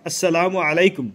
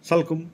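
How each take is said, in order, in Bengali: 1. পূর্ণ সালামের প্রতিটি অংশ বলা হচ্ছে। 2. সালামটি দুই ভাগে চেপে বলা হয়েছে, 'salkum'। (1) "অন্তত এরকম এতটুকু বললে" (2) "এগুলা ব্যঙ্গ করা হয়"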